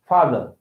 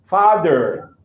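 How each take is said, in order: First: It is said in a British accent. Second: It is said in an American accent. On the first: "British English" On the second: "American English"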